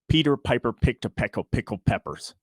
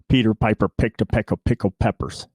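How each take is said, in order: First: Spoken straight on from about four inches away. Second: Spoken straight on from about two inches away. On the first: "I'm straight on about four inches away" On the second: "Now I'm going to get within two inches of the mic"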